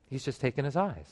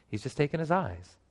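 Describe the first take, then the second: No difference in how they are said.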